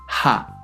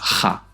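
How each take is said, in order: First: The initial sound is a soft, light breath. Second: The initial sound is a harsh, throaty rasp. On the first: The speaker calls it right. "en coreano el sonido es más suave" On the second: The speaker calls it wrong. "No diremos ja"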